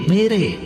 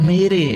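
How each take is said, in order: No difference in how they are said.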